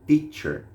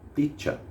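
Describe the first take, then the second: First: An R sound is heard at the end. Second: No R sound is heard at the end. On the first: "também vai ter o R entre parênteses no final" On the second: "em alguns lugares você pode ouvir só um teacher"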